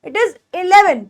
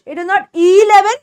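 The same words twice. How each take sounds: First: Eleven with a brief "ih"; eleven as a compact "ih-leven"; short first vowel. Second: Eleven as a drawn-out "eee-leven"; eleven with an over-long "ee"; wrong long E. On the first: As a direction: keep the opening of eleven short. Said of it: "थोड़ा सा short करके". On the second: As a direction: stretch the first vowel of eleven, slowly. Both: Shown as a demonstration.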